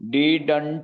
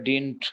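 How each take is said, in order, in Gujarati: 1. બીજો d પૂરેપૂરો ઉચ્ચારાય છે. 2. બીજો d આછો સંભળાય છે. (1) "ડીડન્ટ આપણે ગુજરાતીઓ બોલીએ છીએ" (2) "પણ ખરેખર ડિન્ટ. પહેલા બીજા ડી નો આછો ઉપયોગ ઉચ્ચાર કરીને"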